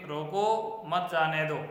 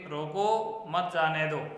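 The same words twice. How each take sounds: First: There is a pause after मत. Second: The same.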